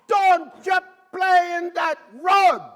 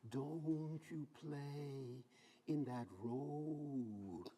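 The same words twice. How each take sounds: First: It is said loudly and forcefully. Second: It is said quietly and timidly.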